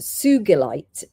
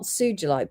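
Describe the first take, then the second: First: The g is hard, as in go. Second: The g is soft, like a j. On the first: This follows the name of the person it honors. The speaker calls it right. "because it's named after a Japanese man called Mister Sugi" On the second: This is the common trade pronunciation. The speaker calls it wrong. "which is pronounced not Sujilite"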